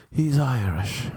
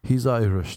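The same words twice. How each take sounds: First: Mock thick Irish accent, pitched up. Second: Said in the usual way. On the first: Middle woman excusing underdressed guest, Irish accent. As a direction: play up an Irish lilt to excuse him. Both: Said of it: "she started making up excuses".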